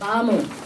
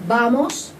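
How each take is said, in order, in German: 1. Der finale s-Laut wird weggelassen. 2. Der finale s-Laut wird ausgesprochen. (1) "die S musst ihr von überall wegstreichen" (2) "wir sagen nicht vamos"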